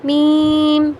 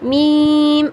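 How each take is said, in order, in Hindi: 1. अक्षर का नाम नाक की आवाज़ के साथ बोला गया है। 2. अक्षर का नाम नाक की आवाज़ के साथ बोला गया है।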